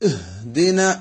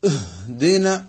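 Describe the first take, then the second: First: The h is loud and booming. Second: The h is loud and booming.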